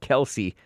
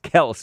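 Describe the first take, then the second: First: The name is said as two syllables. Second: The name is said as one syllable. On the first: The speaker calls it wrong. "not Kelsey" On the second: The speaker calls it right. "it's Kels"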